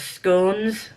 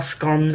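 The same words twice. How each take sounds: First: "scones" with a long o, rhyming with bones; misread word. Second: "scones" with a short o, rhyming with cons; alternative pronunciation. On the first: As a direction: say "scones" like "stones" with a c. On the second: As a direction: say "scones" as "skonz". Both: Shown as a demonstration. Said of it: "however you pronounce it".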